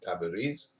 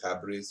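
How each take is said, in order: First: Tabriz is said in an altered pronunciation. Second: Tabriz is said in its usual pronunciation.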